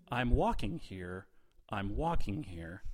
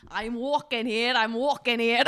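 First: Slow, unemotional quote reading; deadpan. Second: Put-on Scottish accent. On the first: Shown as a demonstration. Host feeding players a film quote, deadpan. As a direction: read the famous line without any drama. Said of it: "how deadpan you're saying them". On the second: Player attempting the assigned film quote, loud Scottish accent. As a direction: belt it out in a mock Scottish brogue. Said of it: "your accent is Scottish".

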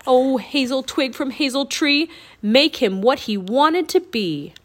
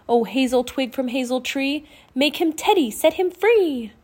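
First: Loud, declaimed rhyming incantation; shouted spell. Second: Chanted rhyme building higher and louder; spell incantation. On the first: Jack aiming the twig at the Raven King, shouted spell. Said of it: "and shouted". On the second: Annie waving the wand over Teddy's cage, rising incantation. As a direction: build the spell to a ringing finish. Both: A narrator's reading.

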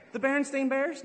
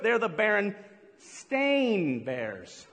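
First: Said in the usual way. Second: "Berenstain" spelled out very slowly, every syllable pressed; slow, deliberate correction. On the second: Shown as a demonstration. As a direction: drag out "Berenstain" so they hear it.

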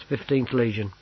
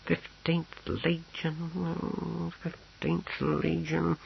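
First: Said in the usual way. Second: High, soft, very drawn-out repetition; absent-minded muttering. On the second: A narrator's reading. Clerk searches his papers for the legion, absently muttering. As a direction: draw it out slowly while searching. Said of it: "shuffling through the papers".

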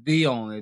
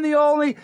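First: Deep announcer voice. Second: Higher, louder hype intro; hype announcer. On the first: Low take of the intro. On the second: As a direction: shout "the only" up high like a hype man. High hype take of the intro. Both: Acted.

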